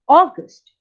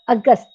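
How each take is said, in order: First: The first vowel is a rounded 'aw' sound. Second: The first vowel is a short 'uh' sound. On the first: The speaker calls it right. "the first part of the August would be O" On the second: The speaker calls it wrong. "It is not August. August will be stated in Hindi"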